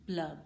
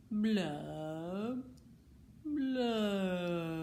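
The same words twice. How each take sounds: First: Said in the usual way. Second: Glum fish blubs. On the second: Acted. Glum bubbling refrain.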